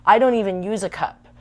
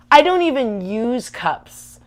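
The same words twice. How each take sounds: First: Said in the usual way. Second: "I don't even use cups" dragged out slowly, every word leaned on and louder; slow, emphatic. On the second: Real, not acted. Insisting to friends she never uses cups, slow and emphatic. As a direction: spell it out slowly, pressing each word.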